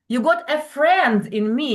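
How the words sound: The stress falls on the word friend. We are becoming friends, not enemies. "stress on the word friend"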